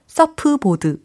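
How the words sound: It is said with Korean-style syllables and vowels. The speaker calls it wrong. "서프보드 이게 아니라"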